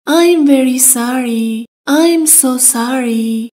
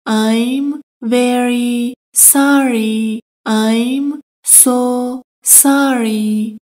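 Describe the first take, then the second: First: Said in the usual way. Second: Slow, stretched teacher model; slowed-down drill. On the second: Shown as a demonstration. Teacher slowing the apology for Persian learners, stretched and slow. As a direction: spell it out slowly for learners. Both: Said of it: "هر دو اصطلاح به معنی".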